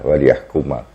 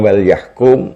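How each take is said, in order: First: The verb ends with an added final 'a' vowel. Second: The verb ends in a consonant, with no final vowel. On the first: It states a purpose: so that they judge. "binasbi yahkuma wa kasri lamhi" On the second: It is a command: let them judge. "lamul amri, lam perintah"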